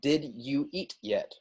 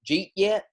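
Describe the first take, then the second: First: Every word of the phrase is fully pronounced. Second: The phrase is squeezed together in Southern speech.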